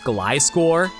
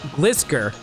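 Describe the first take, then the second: First: The first syllable sounds like 'glide'. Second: The first syllable sounds like 'glisten'. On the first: This is the official pronunciation. "it's really weird that Gliscor is pronounced Gliscor" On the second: This is how the spelling suggests it. "I would have pronounced it like Glis Glisker"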